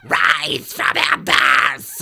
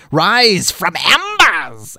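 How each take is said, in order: First: Slow, raspy cartoon villain voice; hammy villain proclamation in a harsh voice; Skeletor. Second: Higher, drawn-out villain cry; slow theatrical proclamation, not quite Skeletor; failed Skeletor attempt. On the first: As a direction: rasp it out, stretching every word. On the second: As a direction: announce it like a hammy cartoon villain. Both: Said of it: "more Skeletor-like".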